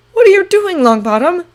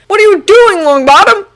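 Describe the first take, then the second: First: Confused. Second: Alarmed cry, high and loud; cried in alarm. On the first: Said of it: "Draco asked in confusion". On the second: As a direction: shout it, jumping up in alarm. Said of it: "Draco cried in alarm". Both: Acted.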